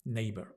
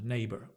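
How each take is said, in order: First: The word ends with an audible R sound. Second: The same.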